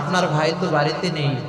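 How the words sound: It is said in a soft, sweet voice. It invites the man to stay. The speaker calls it wrong. "মায়াবী কণ্ঠে নরম সুরে"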